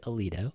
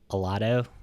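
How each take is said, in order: First: The name is said the way locals say it. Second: The name is said the way outsiders say it. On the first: The speaker is from the area. The speaker calls it right. "We pronounce it Aledo" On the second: The speaker is not from the area. The speaker calls it wrong. "if you're not from here, you'll probably say it Alado"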